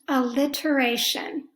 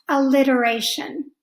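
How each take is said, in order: First: The middle T is said as a clear T. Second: The middle T sounds like a D.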